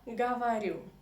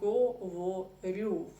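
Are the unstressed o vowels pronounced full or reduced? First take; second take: reduced; full. First: The unstressed o vowels are reduced toward a. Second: The unstressed o vowels are pronounced as full o. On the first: The speaker calls it right. "We say я говорю" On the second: The speaker calls it wrong. "we never say говорю"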